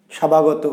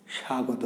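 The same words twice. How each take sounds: First: স্বাভাগত with an extra sounded b; mock mispronunciation. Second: স্বাগত as sha-go-to, no b; silent ব. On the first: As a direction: say স্বাভাগত as sha-ba-go-to. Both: Shown as a demonstration. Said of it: "বয়ের উচ্চারণ আমরা করছি না".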